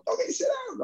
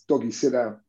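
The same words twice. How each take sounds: First: High, pinched mock coach voice; a teasing coach's order, pitched way up; imitating coach Fisher. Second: Said in the usual way. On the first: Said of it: "he goes". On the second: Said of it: "Fisher used to always say".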